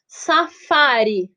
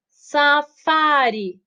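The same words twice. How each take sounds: First: Safari slowly, with a long FA; stressed-syllable demo. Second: Safari pulled apart as sa, FA-ri; slow syllable separation. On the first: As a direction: stretch the fa in safari. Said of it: "É a antepenúltima". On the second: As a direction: draw safari out even more, syllable by syllable. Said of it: "fazer a separação silábica". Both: Shown as a demonstration.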